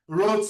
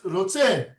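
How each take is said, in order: First: The stress is on the first syllable. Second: The stress is on the last syllable.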